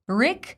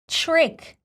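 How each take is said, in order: First: It starts with a plain t and r. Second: It starts with a ch-like t and r. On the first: The speaker calls it wrong. "instead of saying trick" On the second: The speaker calls it right. "includes little ch sound"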